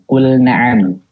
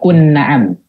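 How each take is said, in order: First: The L sound is pronounced clearly before N. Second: The L sound merges into the following N. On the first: The speaker calls it right. "lamnya dibaca jelas kan?" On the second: The speaker calls it wrong.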